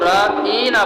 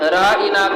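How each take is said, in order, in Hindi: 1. बीच की आवाज़ खिंची हुई और लंबी है। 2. बीच की आवाज़ छोटी और सीधी है।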